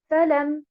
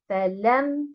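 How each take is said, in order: First: The stress is on the first syllable. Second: The stress is on the second syllable. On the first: It forms a word that does not exist. The speaker calls it wrong. "si vous accentuez harakat el-fa" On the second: It is two words: a preposition plus a negation. The speaker calls it right. "si vous mettez l'accentuation sur harakat el-lam"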